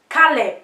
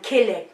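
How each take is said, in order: First: It is said with a Cameroonian accent. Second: It is said with an American accent.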